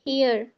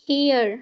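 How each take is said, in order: The two takes are said the same way.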